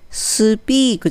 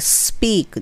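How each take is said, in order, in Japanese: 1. 最初の s の音のあとに u の母音が続く。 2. s のあとはすぐ p につながる。母音はなし。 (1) "スピークじゃなくて" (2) "スって始まるのはスピークですね"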